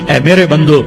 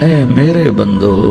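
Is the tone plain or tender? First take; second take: plain; tender. First: It is said in a plain, unaffectionate tone. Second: It is said in a warm, loving tone. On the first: The speaker calls it wrong. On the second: The speaker calls it right.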